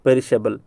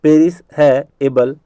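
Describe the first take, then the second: First: Said in the usual way. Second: "पेरिस है एबल" slowly, word by word; broken into parts. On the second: Shown as a demonstration. Teacher making students remember the spelling, broken into parts. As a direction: split "पेरिस है एबल" into three distinct words. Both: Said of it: "याद करवाने के लिए मैं कह रहा हूँ ऐसा".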